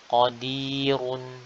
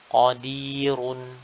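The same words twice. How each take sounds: First: The r sound is heavy and thick. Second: The r sound is heavy and thick.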